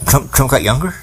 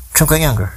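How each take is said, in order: First: Trump got younger? rising at the end in disbelief; incredulous question. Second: Trump got younger, pitched higher and falling; mock high repeat. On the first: Questioning the audience about Trump, in disbelief. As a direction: ask it like you can't believe it. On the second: Telling viewers about Trump, with sarcastic higher pitch. Mocking restatement. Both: Real, not acted.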